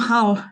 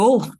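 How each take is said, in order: First: The vowel is an open southern 'a'-like sound. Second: The vowel is a northern 'u' sound like 'full'. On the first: It imitates how people down south say it. The speaker calls it wrong. "they used to pronounce it with an A" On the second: It is how locals say it. The speaker calls it right.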